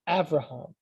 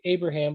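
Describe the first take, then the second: First: The consonant after the first vowel is a V. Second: The consonant after the first vowel is a B. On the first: "the V is a, a valid pronunciation of the letter B" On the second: "you've heard people say Abraham"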